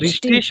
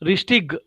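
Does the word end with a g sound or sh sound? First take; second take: sh sound; g sound. First: The word ends with a soft sh sound. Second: The word ends with a hard g sound. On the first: "रिस्टिश भी बराबर है" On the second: "ग भी बराबर है"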